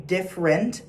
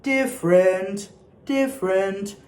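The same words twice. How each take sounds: First: "different" said quickly in an everyday way; quick spoken "different", not sustained; wrong diction demo. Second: "different" slowly as two linked syllables, "diff-rent"; slow, flowing "diff-rent"; merged "different". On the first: Choir coach showing what to avoid, wrong "different". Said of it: "it's not gonna be different". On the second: Choir coach modelling for singers, merged "different". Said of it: "you kind of merge the". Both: Shown as a demonstration.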